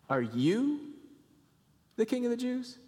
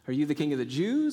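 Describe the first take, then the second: First: The word you is stressed with disbelief. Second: The question is said plainly, without stress on you. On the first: "You. Really, you" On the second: "You can read Pilate's question a thousand different ways based on the inflection"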